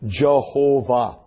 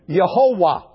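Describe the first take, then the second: First: The name begins with a J sound. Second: The name begins with a Y sound. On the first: "as we would say in English" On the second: "you get Yehovah"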